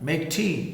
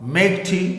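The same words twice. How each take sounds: First: It is said in a soft, requesting tone. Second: It is said in a firm, commanding tone. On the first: A polite request to do it. "चाय बना लेना" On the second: A direct order to do it. "चाय बनाओ"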